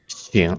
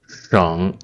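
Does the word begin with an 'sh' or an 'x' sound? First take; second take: x; sh. First: The word begins with an x sound. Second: The word begins with an sh sound. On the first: It means to reflect. "the second pronunciation is 醒" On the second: It means province or save. "The first one is 省"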